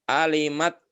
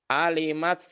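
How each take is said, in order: No difference in how they are said.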